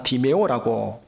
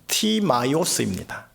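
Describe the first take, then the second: First: The name is said with three syllables, Dimeo. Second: The name is said with four syllables, Timaios. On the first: This is the Korean reading of the name. "우리나라 발음상 디메오라고 읽고" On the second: This is the original-language pronunciation. "원어 발음으로 하면 티마이오스입니다"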